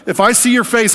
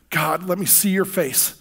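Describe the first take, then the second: First: "your face" cried out high and loud in awe; frightened loud plea. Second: Slow, soft plea on "see your face"; longing plea. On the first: Laid out on the floor, he cries out in fear to God. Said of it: "And I was like". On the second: Praying alone at dawn, a slow soft longing plea. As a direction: ask to see God's face gently, slowly. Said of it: "I cry out". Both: Retold or imitated.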